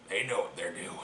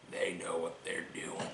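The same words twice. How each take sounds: First: Ominous hush. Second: Softer, fading ominous repeat; near whisper. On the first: Repeated ominous line. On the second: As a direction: drop it to a hushed warning. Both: Acted.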